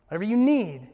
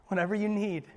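First: Rising to a louder emphasis; louder repeat. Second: Said in the usual way. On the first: Shown as a demonstration. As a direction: press the second one harder.

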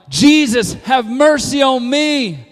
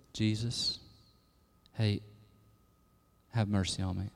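First: Loud, high, drawn-out plea; emphatic cry. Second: Very soft, low, timid murmur; meek, unexcited plea. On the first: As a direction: shout it slowly, desperate to be heard. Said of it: "in the emphatic tone". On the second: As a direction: call out as if afraid to bother anyone. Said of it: "No, it's like ... in the emphatic tone". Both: Shown as a demonstration.

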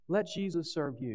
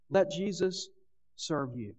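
First: "Let Jesus serve you" in one flowing phrase, a bit quieter; even repeat. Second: "let Jesus" lifted, pause, then "serve you" drops away; stress on let. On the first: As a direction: say it again smoothly, without the break. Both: Shown as a demonstration.

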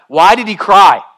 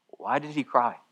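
First: Loud, high, baffled outcry; forceful, raised preaching voice; impassioned questioning. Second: Quiet, wondering question; hushed, reflective repeat; soft pondering. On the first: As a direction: cry it out in disbelief. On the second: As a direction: ask it gently into the silence. Repeats question softly, then loudly. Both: Real, not acted.

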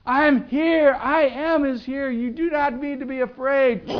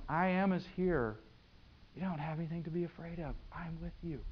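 First: Full-force shout, pitched very high; screaming. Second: Quiet Jesus calming the disciples; soft, voice dropping away as you reassure; soft reassurance. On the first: Jesus screaming to the disciples over the storm, very high and loud. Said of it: "He's screaming at them". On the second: Jesus to scared disciples in the storm, softly reassuring. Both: Acted.

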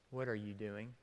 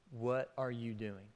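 First: Very soft, lower, near a whisper; hushed question. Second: Low and much softer; soft repeat. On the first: Retold or imitated. Preacher voicing God's question to listeners, hushed. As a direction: ask it gently as God would. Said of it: "God asking you". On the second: Shown as a demonstration. Preacher repeats God's question to congregation, softly. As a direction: let the question settle quietly.

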